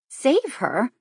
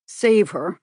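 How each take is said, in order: First: High, rising disbelief; startled question. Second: Louder, falling, firm "Save her"; grave repeat. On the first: Kate echoing the uncle's words in alarm, startled rising question. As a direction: echo his words in shock. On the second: The uncle insisting to Kate, heavy falling "Save her". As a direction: drive "Save her" down with weight. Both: Acted. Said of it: "he repeated".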